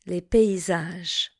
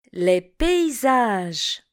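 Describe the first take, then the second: First: Said in the usual way. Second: Paysages said slowly as pei-zaj; teacher slowly models the special sound in paysages. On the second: Shown as a demonstration. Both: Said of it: "un son un petit peu spécial".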